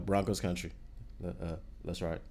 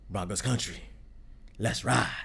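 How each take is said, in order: First: It is said hesitantly, with halting fillers. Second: It is said confidently, in one smooth go.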